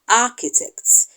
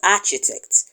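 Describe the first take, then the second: First: The ch is said as k. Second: The ch is not said as k. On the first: The speaker calls it right. "the correct pronunciation is" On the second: The speaker calls it wrong. "usually mispronounced by some people as"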